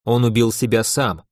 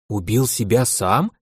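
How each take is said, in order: First: Said in the usual way. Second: Slow, disbelieving rising repeat; incredulous question. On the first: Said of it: "вот и переспрашивает". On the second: Acted. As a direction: ask back, unable to believe it. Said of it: "она не верит своим ушам".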